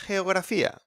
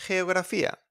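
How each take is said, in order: Both takes have the same delivery.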